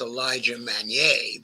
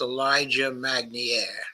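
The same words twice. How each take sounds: First: The surname is pronounced the French way. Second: The surname is pronounced the English way. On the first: The speaker calls it right. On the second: The speaker calls it wrong.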